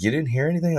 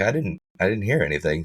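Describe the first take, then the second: First: Retold question, pitched high in disbelief; incredulous neighbor. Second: Said in the usual way. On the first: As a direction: mimic her amazement in a higher voice.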